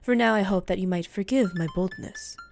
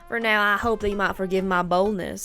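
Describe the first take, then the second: First: It is said without a country accent. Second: It is said with a country accent.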